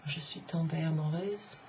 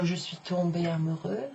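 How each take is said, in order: First: AMOUREUSE ending on a voiced z; feminine ending. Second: AMOUREUX ending on an open eu, no z; masculine ending. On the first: French teacher showing the feminine form, amoureuse closing on a z. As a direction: say amoureuse with a buzzed final z. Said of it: "amoureuse is the feminine". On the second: French teacher showing the masculine form, amoureux ending on open eu. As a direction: say amoureux with no final consonant sound. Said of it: "amoureux is the masculine". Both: Shown as a demonstration.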